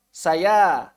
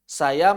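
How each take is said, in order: First: The final vowel is drawn out long. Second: The final vowel is short, running into the next word. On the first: The word ends the utterance on its own. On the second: The word is joined to the words that follow. "Saya nggak panjang karena dia wasol"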